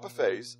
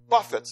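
First: It is said buf-FAYS, ending like 'fays'. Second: It is said BUF-its, ending like 'fits'. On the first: Eating from a spread of food. The speaker calls it wrong. "not buffets. I love to buffet my body" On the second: Striking and disciplining the body. The speaker calls it right. "Paul says that he buffets"

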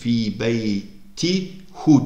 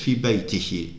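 First: The word ends with the vowel u, as hu. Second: The word ends with the vowel i, as hi. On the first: The speaker calls it wrong. "Fi beyti hu demiyoruz" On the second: The speaker calls it right. "Hu'dan önce ki u i halini alırsa hu da i halini alır"

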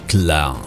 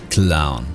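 The two takes are said the same way.

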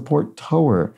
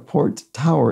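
First: Tower rhymes with lower, like one who tows. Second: Tower rhymes with flower, like a tall building. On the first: Something that tows ships in a port. The speaker calls it right. "something that tows in a port" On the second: A tall building at a port. The speaker calls it wrong. "It's not a port tower"

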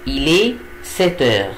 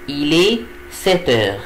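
Both takes have the same delivery.

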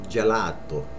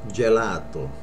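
No difference in how they are said.

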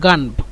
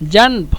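First: The word begins with a 'g' sound. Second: The word begins with a 'j' sound. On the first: "জিমকে যদি আমরা গয়ন বলি তাহলে বলবো গানব" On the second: "জিমকে যদি আমরা"

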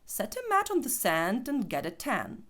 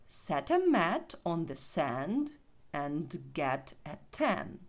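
First: The sentence is said fast with reduced words. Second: The sentence is said slowly with full words. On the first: "якщо ми цю скоромовку зараз прочитаємо швидше, то це буде звучати ось так" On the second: "спочатку повільно"

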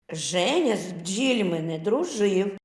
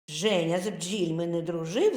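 First: It is read at a slower, ordinary pace. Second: It is read at a faster pace.

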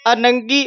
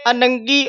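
No difference in how they are said.

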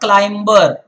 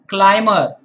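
First: The B sound is clearly pronounced. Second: The B sound is left silent. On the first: The speaker calls it wrong. "It's not climber" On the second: The speaker calls it right. "Similarly, it's climber"

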